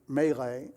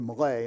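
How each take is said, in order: First: It is said in a non-British way. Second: It is said in a British way.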